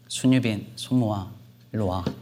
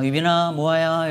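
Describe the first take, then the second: First: It is said in a stern, angry tone. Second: It is said in a gentle, affectionate tone.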